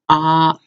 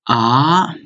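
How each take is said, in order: First: The pitch stays level and unchanged. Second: The pitch rises from lower to higher. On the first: "the first one is ah" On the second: "Second one is ah"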